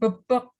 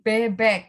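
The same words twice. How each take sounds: First: The e vowels are a weak 'uh' sound. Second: The e vowels are a clear 'eh' sound. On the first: The speaker calls it wrong. "Dibacanya bukan bebek" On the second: The speaker calls it right. "tapi bebek gitu"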